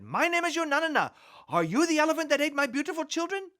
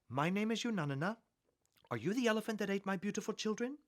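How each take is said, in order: First: It is said somewhat louder than before. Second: It is said at a normal, quiet volume.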